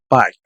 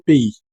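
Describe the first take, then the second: First: The word sounds like 'pie', ending in 'eye'. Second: The word ends in an 'ay' vowel sound. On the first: The speaker calls it wrong. "si pronuncias como pie" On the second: The speaker calls it right. "es le pays"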